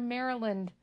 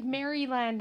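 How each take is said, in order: First: Said in the usual way. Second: "Maryland" said as Mary-land; two words, Mary plus land, in "Maryland"; full "land" ending on "Maryland"; weird pronunciation. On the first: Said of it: "instead of Maryland". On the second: Shown as a demonstration. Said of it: "I just talk weird".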